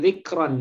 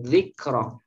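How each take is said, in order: First: The word ends with an added n sound. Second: The word ends on a plain vowel. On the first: The speaker calls it wrong. "bukan zikron ya" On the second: The speaker calls it right.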